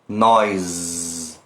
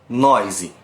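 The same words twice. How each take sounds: First: It ends on a vibrating consonant with no vowel. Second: An extra vowel sound is added at the end. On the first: The speaker calls it right. "deixar o som vibrar" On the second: The speaker calls it wrong. "muitos brasileiros olham e leem noise"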